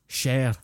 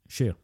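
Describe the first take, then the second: First: It uses an exaggerated, fake Scottish pronunciation. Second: It uses a natural Scottish pronunciation. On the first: The speaker calls it wrong. "no one says share" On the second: The speaker calls it right. "That's how you say the word share in a Scottish accent"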